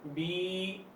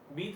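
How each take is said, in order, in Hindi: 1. स्वर को लंबा खींचा गया है। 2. स्वर छोटा है। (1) "थोड़ा लंबा इसको करते हैं" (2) "बी था"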